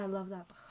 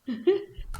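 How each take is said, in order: First: Said in the usual way. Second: "I love that book" much higher and louder, rising on "that"; excited squeal. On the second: Shown as a demonstration. Gushing to her co-host about The Alchemist, high excited squeal.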